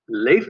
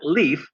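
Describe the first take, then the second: First: The name is said a non-American way. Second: The name is said the American way.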